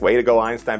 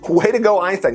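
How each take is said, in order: First: The phrase is said in a condescending, mocking tone. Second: The phrase is said in a sincere, approving tone. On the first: The person is mocking the other as not clever. "it sounds condescending" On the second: The person genuinely praises the other as correct. "But in this case"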